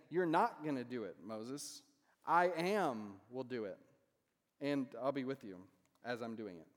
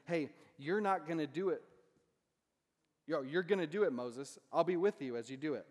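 First: Slow, weighted I am will do it; second reading. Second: Louder, stress on gonna do it and with; God as encourager, you're gonna do it, Moses; first reading. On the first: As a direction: stress on not and a slow I am. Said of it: "But in another sense, he's saying". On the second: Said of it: "In one sense, God is saying". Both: Shown as a demonstration.

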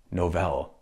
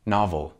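First: "novel" said NAH-vul, short a, stress on the first syllable; plain English "novel": NAH-vul; "novel" with a short vowel like "not", stress up front; correct pronunciation. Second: "novel" said NOH-vel, long o, stress on vel; "novel" with a long o like "no", final syllable like "bell"; wrong pronunciation. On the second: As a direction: mimic the bad take: "novel" as NOH-VEL. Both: Shown as a demonstration. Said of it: "not novel".

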